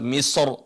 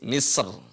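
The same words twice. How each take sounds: First: The final r sounds heavy and full. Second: The final r sounds light and thin. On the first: "boleh duanya tebal Misr" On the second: "atau dibaca tipis Misr"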